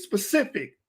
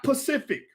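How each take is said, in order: First: Specific, with the S before the P; correct pronunciation. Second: Pacific, dropping the S from specific; wrong pronunciation. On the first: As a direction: say specific with a clear opening SP. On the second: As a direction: say Pacific, starting straight on P. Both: Shown as a demonstration. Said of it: "not Pacific".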